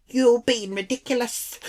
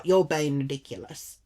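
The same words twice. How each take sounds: First: High-pitched failed attempt at Irish; badly faked Irish indignation; bad Irish accent. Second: Said in the usual way. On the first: Irish lady scolding her, bad Irish accent. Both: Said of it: "Can't do the accent".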